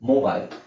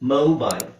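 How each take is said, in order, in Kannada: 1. ಇದು ಇಂಡಿಯನ್ ಉಚ್ಚಾರಣೆ. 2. ಇದು ಅಮೆರಿಕನ್ ಉಚ್ಚಾರಣೆ. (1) "ನಾವು ಹೇಳೋದೇನು ಮೊಬೈಲ್" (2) "ಅಮೆರಿಕನ್ ಪ್ರೊನೌನ್ಸಿಯೇಷನ್ ಅಲ್ಲಿ ನಿಮಗೆ ಓ ಅಂತ ಬರುತ್ತೆ"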